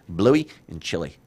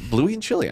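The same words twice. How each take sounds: First: Slower, lightly put-on Australian accent. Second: Said in the usual way. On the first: Shown as a demonstration. Host savouring the dogs' names, light Australian accent. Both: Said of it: "kinda do it with an Australian accent".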